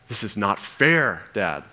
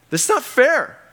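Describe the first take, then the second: First: Said in the usual way. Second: Much higher, louder cry of "not fair"; mock outraged whine. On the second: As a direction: wail "This is not fair" like a sulking teen. Same words, raised.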